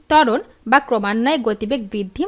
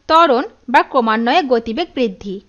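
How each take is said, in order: Both takes have the same delivery.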